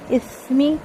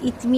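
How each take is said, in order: First: The middle consonant is a soft th sound. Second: The middle consonant is a hard t sound. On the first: The speaker calls it right. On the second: The speaker calls it wrong.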